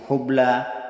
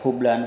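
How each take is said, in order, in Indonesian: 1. Kata ini berakhir dengan vokal biasa. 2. Kata ini berakhir dengan tambahan n.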